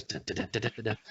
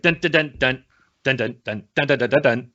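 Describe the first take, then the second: First: Very soft vocalized jazz drum beat; smooth jazz drumming. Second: Punchy vocalized intro beat; opening theme imitation. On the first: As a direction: tap out a hushed jazz groove with your voice. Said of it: "play some smooth jazz". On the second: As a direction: sing out a drum intro on "dun". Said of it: "the opening be like". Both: Shown as a demonstration.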